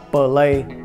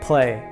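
First: The p is separated from the l. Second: The p is light and blended into the l. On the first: The speaker calls it wrong. "thường đọc là play" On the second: The speaker calls it right. "thực ra phải đọc là play"

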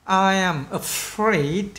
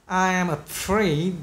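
The two takes are said the same way.

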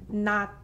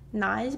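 First: The word ends with a t sound. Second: The word ends with a z sound. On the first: The speaker calls it right. "but it's pronounced not" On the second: The speaker calls it wrong. "it's not pronounced naz"

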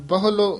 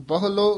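The two takes are said the same way.

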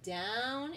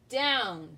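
First: The word is said at normal loudness. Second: The word is said very loudly.

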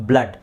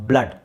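Both takes have the same delivery.

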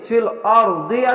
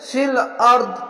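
First: The last word ends with an 'i' vowel. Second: The last word ends on a consonant. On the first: "ফিল আর দি আছে" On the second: "থামতে গেলে ফিল আর্ধ এভাবে থেমে যাবেন"

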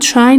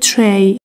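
First: The vowel sounds like 'eye'. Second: The vowel sounds like 'ay'. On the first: The speaker calls it wrong. "دوستان try نگید" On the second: The speaker calls it right. "بگید tray"

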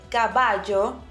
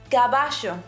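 First: The double L has a common, neutral sound. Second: The double L has a regional Argentine sound. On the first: "instead of saying caballo" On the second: "it's pronounced caballo. This is more common in regions such as Argentina and Uruguay"

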